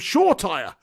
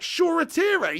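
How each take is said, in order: First: The surname is said with two syllables. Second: The surname is said with three syllables. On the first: This is how it was said until now. The speaker calls it wrong. "I've just been calling him Shore Tire" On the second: This is the pronunciation just learned. The speaker calls it right. "I didn't know it was pronounced that way"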